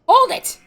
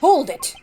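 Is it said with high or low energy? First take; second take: high; low. First: It is said with loud, high enthusiasm. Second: It is said calmly with little enthusiasm.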